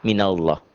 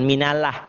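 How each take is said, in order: First: "minallah" lower, as "minalloh"; low, heavy-L "minallah"; thick Allah. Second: "minallah" with light L and open A; thin, mistaken "minallah"; wrong thin Allah. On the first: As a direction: say "minallah" low with rounded O ending. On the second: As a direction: say "minallah" ending in plain "-lah". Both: Shown as a demonstration. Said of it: "Bukan minallah".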